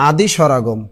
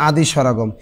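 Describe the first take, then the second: The two takes are said the same way.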